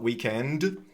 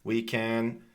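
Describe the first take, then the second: First: The D sound is clearly released. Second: The D sound is held and not released. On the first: The speaker calls it wrong. "not weekend" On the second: The speaker calls it right. "I also can't hear the D being released in weekend"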